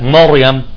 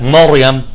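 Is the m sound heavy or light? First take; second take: heavy; heavy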